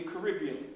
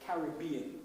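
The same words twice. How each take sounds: First: Caribbean said Ca-RIB-bean, the r rolled into the vowel; island pronunciation of Caribbean. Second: Caribbean said CA-rib-bean, with an open a and clear r; British English pronunciation of Caribbean. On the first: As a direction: say Caribbean the island way, stress on the second syllable. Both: Shown as a demonstration. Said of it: "if you want to give it the English version".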